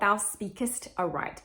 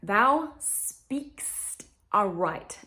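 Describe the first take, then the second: First: The verb is said with two syllables. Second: The verb is squeezed into one syllable. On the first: The speaker calls it wrong. "not thou speakest aright ... don't add the extra syllable" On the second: The speaker calls it right. "it is, thou speakst aright"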